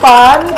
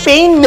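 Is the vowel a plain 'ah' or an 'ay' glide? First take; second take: ah; ay. First: The vowel is a plain open 'ah' sound. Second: The vowel glides like English 'ay'. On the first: The speaker calls it right. "paano pronunciation? Pans" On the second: The speaker calls it wrong. "Ako dati pain"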